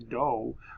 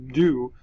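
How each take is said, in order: First: The vowel is a long 'oh' sound. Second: The vowel is a long 'oo' sound. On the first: The speaker calls it wrong. "I don't say do" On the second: The speaker calls it right. "but it is do"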